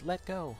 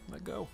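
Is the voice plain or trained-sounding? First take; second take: trained; plain. First: Spoken in a gentle, trained voice. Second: Spoken in an ordinary, untrained voice. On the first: The speaker calls it right. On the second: The speaker calls it wrong.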